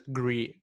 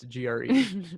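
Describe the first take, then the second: First: The acronym is read as a single word. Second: Each letter of the acronym is said separately. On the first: The speaker calls it wrong. "nobody says G R E" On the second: The speaker calls it right. "It's G R E"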